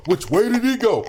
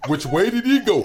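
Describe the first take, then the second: First: Said in the usual way. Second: Asking through a laugh, lightly mock puzzled. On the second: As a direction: giggle out the question. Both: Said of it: "trying to direct the airplane in".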